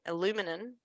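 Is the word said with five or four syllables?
four. The word is said with four syllables. This is how the listener's country says it. "you pronounce it alumi aluminum"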